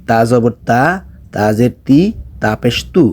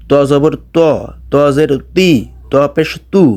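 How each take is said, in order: First: তা pronounced light and thin, "ta"; soft ta. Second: ত pronounced heavy and rounded, "to"; thick to. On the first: Teacher contrasting the letters, soft light তা. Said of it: "একটু নরম করে উচ্চারণ করতে হবে". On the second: Teacher drilling the letter, heavy rounded ত. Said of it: "একটু মোটা করে". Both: Shown as a demonstration.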